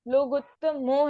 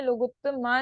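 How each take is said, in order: First: लोगुत्तमो ending in a clear "o"; लोगुत्तमो with a distinct closing "mo"; final "mo". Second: लोगुत्तमा ending in a long "aa"; लोगुत्तमा with open final "aa"; mistaken "ma" ending. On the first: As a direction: make the last vowel of लोगुत्तमो an "o". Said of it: "ध्यान रहे लोगुत्तमो है यहाँ पे". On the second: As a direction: end लोगुत्तमा on "maa". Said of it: "लोगुत्तमा नहीं है". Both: Shown as a demonstration.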